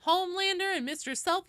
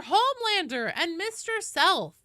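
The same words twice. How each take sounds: First: Put-on high Valley Girl voice rising on Homelander; Valley Girl call ending up like a question; Valley Girl uptalk. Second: Put-on high Valley Girl voice, falling tune on Homelander; Valley Girl call with a settled falling end; Valley Girl accent. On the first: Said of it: "sometimes I try to say everything like it's a question". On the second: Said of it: "The Valley Girl voice".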